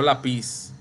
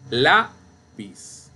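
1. La sílaba tónica cae en la última sílaba. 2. La sílaba tónica cae en la primera sílaba. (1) "No lápiz" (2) "Penúltima sílaba"

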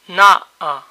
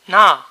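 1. D-ul cade, rămân două vocale una după alta. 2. Toată a doua silabă cade, rămâne o singură silabă. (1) "D between vowels is weak or disappears altogether" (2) "D between vowels is weak or disappears altogether"

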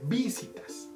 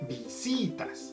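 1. El acento está en la primera sílaba. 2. El acento está en la segunda sílaba. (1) "Si lo cambiáramos para la vi, sonaría visitas" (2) "Visitas tiene el acento en la si"

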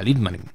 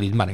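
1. El acento está en la primera sílaba. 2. El acento está en la segunda sílaba. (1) "Los apellidos finlandeses son esdrújula siempre" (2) "el jugador del Barça no era Lidmanen"

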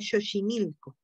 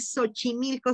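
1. Se pronuncia con acento al estilo náhuatl. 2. Se pronuncia con acento al estilo español. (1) "sería" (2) "en vez de"

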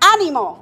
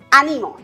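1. El acento está en la primera sílaba. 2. El acento está en la segunda sílaba. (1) "Es palabra esdrújula" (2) "Palabra grave"

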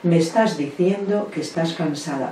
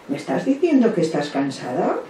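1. Se dice con un tono tranquilo, de aceptación. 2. Se dice con un tono dudoso, como una pregunta. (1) "la respuesta empática acoge" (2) "pero nunca diremos, ... esos tonos de voz"

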